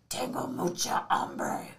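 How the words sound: It is said in a Batman voice.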